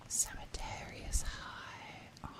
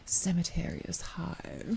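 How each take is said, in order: First: Very soft, slow sultry whisper; seductive whisper. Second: Quick teasing whisper; seductive whisper. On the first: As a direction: draw it out in a hushed breath. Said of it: "say things in, like, a seductive voice". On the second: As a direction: whisper it playfully to the mic. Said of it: "I can just say things in, like, a seductive voice". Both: Pretend.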